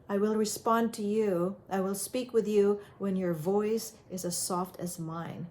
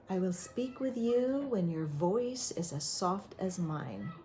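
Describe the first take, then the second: First: Said in the usual way. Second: Soft, measured boundary-setting; soft, calm reply. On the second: Shown as a demonstration. Parent answering a yelling kid, calm and soft. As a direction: answer yelling with a quiet, steady voice.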